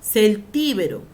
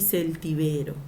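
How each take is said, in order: First: "Celtíbero" punched on TI, cel-TÍ-be-ro; antepenultimate stress. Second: "celtibero" stressed on BE, cel-ti-BE-ro; penultimate stress. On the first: Teacher giving first accepted form, "Celtíbero" as cel-TÍ-be-ro. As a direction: hit TÍ loudly in "Celtíbero". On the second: Teacher giving second accepted form, "celtibero" as cel-ti-BE-ro. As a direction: move the weight onto BE in "celtibero". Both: Shown as a demonstration. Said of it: "Se puede escribir de las dos formas".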